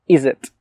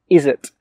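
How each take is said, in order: No difference in how they are said.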